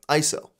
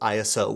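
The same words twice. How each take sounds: First: It is pronounced as a single two-syllable word. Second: It is spelled out as three separate letters.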